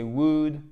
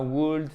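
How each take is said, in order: First: "would" said with no L; silent L. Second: "would" with the L wrongly sounded; L prononcé à tort. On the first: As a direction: drop the L so "would" rhymes with good. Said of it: "On ne prononce pas le L". (« would » prononcé sans le L) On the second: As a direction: put an audible L before the D in "would". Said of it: "c'est pas would". (« would » avec un L prononcé à tort) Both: Shown as a demonstration.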